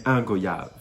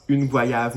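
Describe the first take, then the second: First: "un goyave" with masculine un and the final v dropped, goya; Creole way. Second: "une goyave" with the feminine article, said slowly; wrong way. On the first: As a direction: say "un goyave" the Réunion way. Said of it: "mais un goyave". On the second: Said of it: "on dit pas une goyave". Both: Shown as a demonstration.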